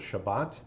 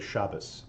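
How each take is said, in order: First: The word ends with a t sound. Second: The word ends with an s sound. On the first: This is the standard Israeli pronunciation. "standard Israeli Hebrew will have a Shabbat"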